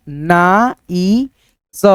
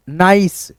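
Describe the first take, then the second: First: ना ई स in slow separate sounds, naa, ee, sa; drawn-out ना, ई, स with gaps; sounded out. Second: Said in the usual way. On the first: Shown as a demonstration. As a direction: sound out ना ई स piece by piece. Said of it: "यहाँ पे हो जाएगा".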